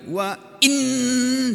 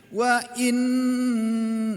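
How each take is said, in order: First: The doubled n is pressed with force. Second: The doubled n flows softly without force. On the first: The speaker calls it wrong. "ditekan nggak boleh" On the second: The speaker calls it right. "nah gitu"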